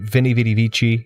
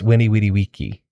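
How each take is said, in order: First: The words begin with a V sound. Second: The words begin with a W sound. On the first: The speaker calls it wrong. "you hear that all the time" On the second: The speaker calls it right. "Winnie Weedy Wiki is how you say that"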